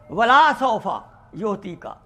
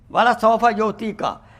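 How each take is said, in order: First: The l sound in wala is drawn out. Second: The l sound in wala is short. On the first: The speaker calls it wrong. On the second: The speaker calls it right.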